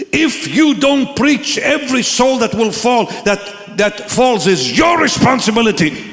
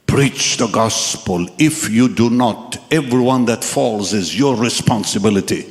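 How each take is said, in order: First: Guest speaker preaching. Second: Solemn voice from a vision. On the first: Guest speaker warns someone sitting right there, preaching forcefully. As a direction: hammer out each word in a raised voice. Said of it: "And the guest speaker looks and says". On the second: Voice in the dream charges the young man, low and solemn. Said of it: "And I heard a voice". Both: Retold or imitated.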